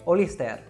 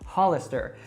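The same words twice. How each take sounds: First: It is said with a Spanish accent. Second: It is said with an American English accent. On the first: "Here, they say Hollister" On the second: "people here don't say it like that"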